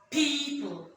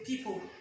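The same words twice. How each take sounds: First: The first vowel is a long ee. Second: The first vowel is not a long ee. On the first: The speaker calls it right. "So the E O in people says E" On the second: The speaker calls it wrong. "We don't say people"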